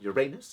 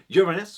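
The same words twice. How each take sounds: First: The name is said in a cheeky, playful way. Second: The name is said in a plain, neutral way.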